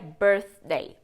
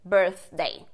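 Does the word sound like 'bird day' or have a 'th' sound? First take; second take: th sound; th sound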